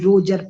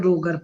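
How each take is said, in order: First: The g is a soft j sound. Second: The g is a hard g sound. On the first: Other people read it this way. "कोई रोजर पढ़ेगा" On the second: It is read just as it is spelled. "R O जी E R लिखा तो रोगर पढ़ दे रही हूँ"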